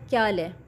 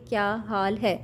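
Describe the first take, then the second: First: The three words are run together into one. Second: Each of the three words is said separately. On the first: "तीनों words को उसने एक साथ बोल दिया" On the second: "हम तीन वर्ड्स को अलग अलग बोलेंगे"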